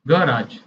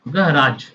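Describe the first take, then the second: First: It is said in an American accent. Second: The same.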